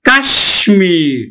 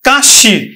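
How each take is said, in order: First: The m is clearly pronounced after the sh. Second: The m is silent and the sh is doubled. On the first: This keeps the Sanskrit pronunciation. The speaker calls it right. "কিন্তু আসলে উচ্চারণটা হবে" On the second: This follows the usual m-phala rule. The speaker calls it wrong. "মফলা অনুযায়ী এখানে উচ্চারণ হবে"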